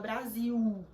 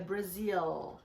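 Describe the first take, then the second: First: The word ends with a u-like vowel sound. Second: The word ends with a strongly pulled L sound. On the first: The speaker calls it wrong. "a gente fala Brasil" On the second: The speaker calls it right. "É bem puxado o L"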